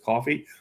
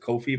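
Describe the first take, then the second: First: The first vowel sounds like in 'cot'. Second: The first vowel sounds like in 'coat'. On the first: The speaker calls it right. "but it's coffee" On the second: The speaker calls it wrong. "some people pronounce it as Kofi"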